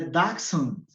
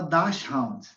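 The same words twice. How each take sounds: First: The ending has no 'round' sound. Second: The ending sounds like the word 'round'. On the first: The speaker calls it right. "mas é Dachshund. Ele não tem round" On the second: The speaker calls it wrong. "A gente fala Dachshund"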